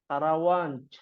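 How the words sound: It ends with an Arabic-style j sound.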